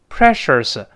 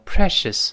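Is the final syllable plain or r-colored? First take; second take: r-colored; plain. First: The final syllable has a curled, r-colored vowel. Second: The final syllable has a plain vowel, no r-coloring. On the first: The speaker calls it wrong. "不要读precious" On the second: The speaker calls it right. "而要读成precious"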